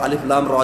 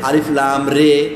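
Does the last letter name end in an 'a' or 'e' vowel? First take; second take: a; e. First: The last syllable ends in an 'a' vowel. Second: The last syllable ends in an 'e' vowel. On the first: The speaker calls it right. "যেমন আছে" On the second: The speaker calls it wrong. "তাহলে এটা আরবি ভাষার সৌন্দর্যকে নষ্ট করবে"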